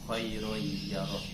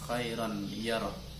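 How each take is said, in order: First: The n sound vanishes, merging into the y. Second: The n sound is heard clearly before the y. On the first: "nun hilang, tanwinnya hilang, masuk pada huruf idghamnya" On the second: "Kalau lafal secara uh, kosakatanya khairan"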